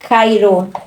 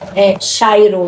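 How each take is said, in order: First: The word starts with a hard K sound. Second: The word starts with a softer, breathier sound. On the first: This follows the old way of reading the letters. "A gente lê Cairo porque a, a antiga pronúncia, né? Quando o C H, não é? Faria essa K" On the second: This follows the spelling of the word. "é Chairo no caso"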